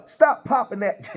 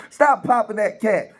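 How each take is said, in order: First: Breaking into laughter mid-line; words cracking with a laugh. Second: Said in the usual way. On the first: Real, not acted. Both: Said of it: "I can't stop laughing".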